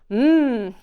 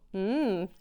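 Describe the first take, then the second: First: It is a loud, very enthusiastic hum. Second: It is a moderately enthusiastic hum.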